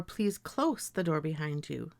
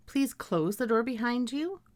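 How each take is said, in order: First: "close" with voiceless s, sentence falling; close ending in s. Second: "close" ending in z, sentence rising; close as CLOZE. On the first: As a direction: say "close" to rhyme with "dose". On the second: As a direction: say "close" to rhyme with "nose". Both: Shown as a demonstration. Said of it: "I may read these words as".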